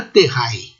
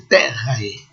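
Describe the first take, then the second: First: "terrae" stressed on the final part, ter-RAE; wrong stress. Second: "terrae" stressed on the first syllable, TER-rae; classical stress. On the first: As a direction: say "terrae" with the weight on the ending. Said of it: "nunca terrae". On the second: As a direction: lower "terrae", long first syllable and short ending. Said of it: "mas é terrae". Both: Shown as a demonstration.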